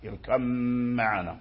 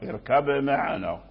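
First: The b merges into a long, nasal m. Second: The b is clearly released before the m. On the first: "فلهم الإدغام في يعني في ميم باء اركب في ميم معنا" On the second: "فأظهروا من هذه الناحية"

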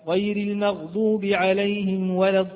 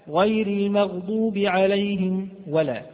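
No difference in how they are said.

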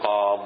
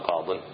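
First: The word ends without a final n sound. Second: The word ends with a final n sound. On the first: The word is at a pause in speech. The speaker calls it right. "فحينئذ تقول قاض" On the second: The word is joined to following speech. The speaker calls it wrong. "ما تقول قاض، يحذف التنوين"

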